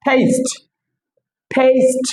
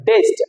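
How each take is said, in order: First: টেস্ট with an English "ei" and a breathy t; টেস্ট said "teist"; correct way. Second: টেস্ট with a hard Bangla ট; common wrong way. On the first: Teacher shows the right way: টেস্ট, "teist". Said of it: "এটা হচ্ছে, হচ্ছে কি". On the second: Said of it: "যেটাকে বলি টেস্ট". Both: Shown as a demonstration.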